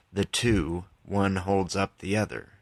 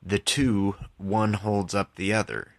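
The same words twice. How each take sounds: The two takes are said the same way.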